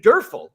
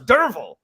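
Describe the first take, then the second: First: The middle consonant is an f sound. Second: The middle consonant is a v sound. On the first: The speaker calls it wrong. "they say Durfel" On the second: The speaker calls it right. "no, it's Dervel"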